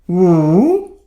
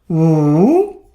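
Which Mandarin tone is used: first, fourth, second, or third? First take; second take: third; third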